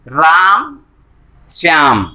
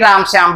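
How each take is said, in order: First: There is a short pause between the two names. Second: The two names run together without a pause. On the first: The speaker calls it right. "जब हम राम को बोल लेते हैं तो थोड़ा सा कुछ समय के लिए हम रुकते हैं" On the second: The speaker calls it wrong. "ऐसा नहीं"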